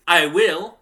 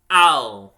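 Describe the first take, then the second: First: "I will" louder, two separate words; full form. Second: "I'll" as one smooth syllable; contracted. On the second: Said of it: "smoothing two words into one syllable". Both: Shown as a demonstration.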